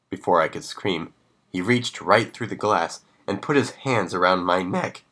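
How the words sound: The voice cracks like a teenager's.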